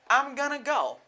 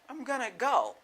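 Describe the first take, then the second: First: 'Going to' is blended smoothly into 'gonna'. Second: 'Going to' is blended smoothly into 'gonna'.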